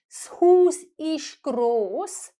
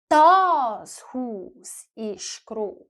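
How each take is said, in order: First: The first word is said lightly, without stress. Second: The first word is said with strong stress. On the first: The house is big. "Instead of just saying" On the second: This particular house is big. "if you want to say, this house is big"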